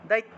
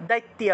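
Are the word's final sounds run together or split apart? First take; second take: run together; run together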